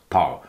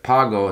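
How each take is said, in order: First: "pao" for pago, g left out; dropped consonant. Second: Pago with the g sounded; "pago" as two clear syllables, pa-go; full pronunciation. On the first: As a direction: say "pao" with the vowels run together. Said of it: "I heard it as pao". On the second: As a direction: say "pago" in full, hard g between the vowels. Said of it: "pago to him was almost pao". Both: Shown as a demonstration.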